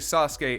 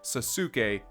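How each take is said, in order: First: The middle u sound is dropped. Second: The middle u sound is fully pronounced. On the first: The speaker calls it right. "if you would say Sasuke" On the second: The speaker calls it wrong. "and not Sasuke"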